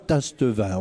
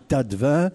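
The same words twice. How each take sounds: First: The s before the t is pronounced. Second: The s before the t is silent. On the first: The speaker calls it wrong. "on ne dit pas Tastevin" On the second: The speaker calls it right. "on dit Tastevin"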